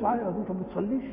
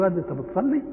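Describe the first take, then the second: First: Quick reproving question, rising on ما بتصليش; rapid, mildly disapproving ما بتصليش, lifted at the end. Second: Neutral question, rising on بتصلي; أنت بتصلي as an ordinary yes-or-no question; plain question. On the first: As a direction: rattle off ما بتصليش as a disbelieving question. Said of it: "معناها أنك تنكر عليه إنه ما يصليش". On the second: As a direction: ask أنت بتصلي simply, voice lifting at the end. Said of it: "إنما لما جيت على بعادتك كده تقول له". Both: Acted.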